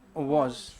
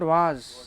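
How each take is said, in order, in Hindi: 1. यह एक गोल 'o' स्वर है। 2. यह एक खुला, बिना गोलाई का 'aa' स्वर है। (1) "it's वॉज" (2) "it's not वाज"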